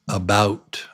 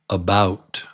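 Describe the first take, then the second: No difference in how they are said.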